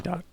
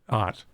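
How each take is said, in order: First: The word is said with its initial D sound. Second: The word is said without its initial D sound. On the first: The speaker calls it right. "No, we say dot" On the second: The speaker calls it wrong. "I don't pronounce my D's or my T's"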